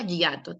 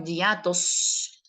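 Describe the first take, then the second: First: Said in the usual way. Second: Hiatos with a long final s; stressed plural. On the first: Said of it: "Que no diga hiato". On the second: Shown as a demonstration. Teacher correcting the question to plural, hiatos with stressed s. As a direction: draw out the s ending of hiatos. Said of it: "que diga hiatos acentuales".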